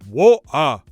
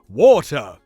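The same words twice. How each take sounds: First: The T is a glottal stop. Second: The T is a fully pronounced T. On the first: The speaker calls it wrong. "Patrick Stewart would never say" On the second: The speaker calls it right. "he would pronounce the true T"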